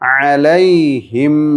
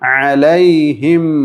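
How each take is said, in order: First: The final m is held long and clearly audible. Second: The same.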